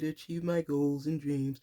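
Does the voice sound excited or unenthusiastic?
unenthusiastic. It is said flatly, without enthusiasm. The speaker does not really believe it. The speaker calls it wrong. "You can't just say"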